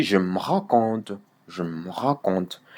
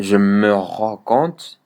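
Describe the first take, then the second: First: "je me rends compte" with "me" reduced to m; swallowed E. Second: Slow "je me rends compte", every syllable sounded; full E in "me". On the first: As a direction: drop the E: "je m'rends compte". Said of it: "tu le bouffes". (« je me rends compte » en avalant le E de « me ») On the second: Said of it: "le E là de me". (« je me rends compte » lentement, avec le E de « me » prononcé) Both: Shown as a demonstration.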